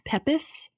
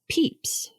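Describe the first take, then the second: First: The name is not said as 'peeps'. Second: The name is said as 'peeps'. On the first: The speaker calls it wrong. "I kept saying it as Pepys" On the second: The speaker calls it right. "it's actually pronounced Peeps"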